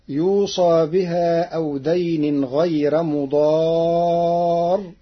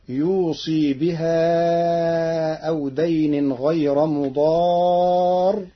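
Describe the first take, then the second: First: The sad is said with an a vowel. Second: The sad is said with an i vowel. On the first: The bequest is made, without naming who makes it. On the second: The deceased person makes the bequest.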